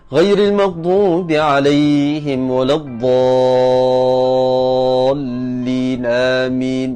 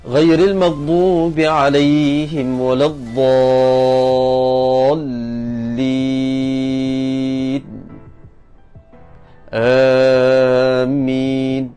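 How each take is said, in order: First: It rushes into Amin without pausing. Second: There is a short pause before Amin.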